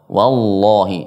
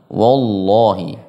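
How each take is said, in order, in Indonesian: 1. Bunyi w di awal ringan dan tipis. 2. Bunyi w di awal berat dan tebal. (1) "harus tipis huruf wawunya" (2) "jangan wallahi"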